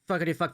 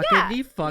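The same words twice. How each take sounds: First: It is said quickly, without emphasis. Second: It is said slowly, with emphasis.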